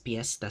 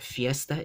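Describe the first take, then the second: First: The word begins with a p sound. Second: The word begins with an f sound. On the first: This is the Philippine Spanish form. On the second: This is the standard Spanish form.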